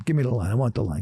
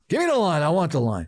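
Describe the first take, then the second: First: Said in the usual way. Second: Much higher, louder, pushy bark; exaggerated demand. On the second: Shown as a demonstration. Calling the bookie, mock pushy demand. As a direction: demand it like a desperate gambler. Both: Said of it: "I wouldn't say it like that".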